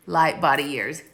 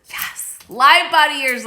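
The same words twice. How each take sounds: First: Said in the usual way. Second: "light body years" thrown out much higher and louder, loving it; delighted echo. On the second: Real, not acted. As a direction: cheer the viewer's joke back at her.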